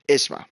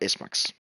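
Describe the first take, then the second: First: The name ends without a final 'ks' sound. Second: The name ends with a final 'ks' sound. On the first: The speaker calls it right. "So let's just say it like that" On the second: The speaker calls it wrong. "So not"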